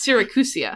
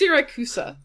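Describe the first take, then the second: First: The name ends with an added 'ia' sound. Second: The name ends with the sounds 'cusa'. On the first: The speaker calls it wrong. "you keep adding an ia to it, which isn't there" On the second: The speaker calls it right. "It's just Siracusa"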